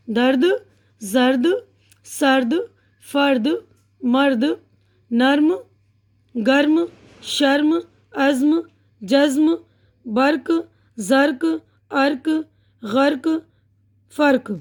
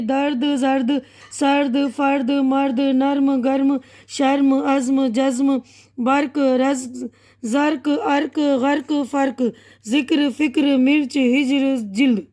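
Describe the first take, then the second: First: Each word alone with a pause after; unhurried word-by-word reading; slow and careful. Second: Words run on in pairs with no pause; brisk run-through of the list; quick reading. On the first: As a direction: read slowly, one word at a time. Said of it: "मैं पहले थोड़ा इत्मीनान से पढ़ के". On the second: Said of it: "अब मैं जल्दी जल्दी पढ़ रही हूँ". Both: Shown as a demonstration.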